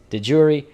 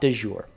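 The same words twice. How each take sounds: First: It is pronounced the English way. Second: It is pronounced with a French-style sound. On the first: The speaker calls it right. "it is in fact, yes, de jure" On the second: The speaker calls it wrong. "It is not de jure. ... there is no French there"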